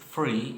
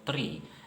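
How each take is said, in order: First: The th is said like an f. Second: The th is said as th.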